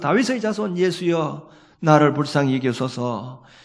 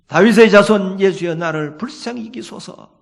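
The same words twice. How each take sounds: First: It is said at normal loudness. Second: It is shouted in a louder voice.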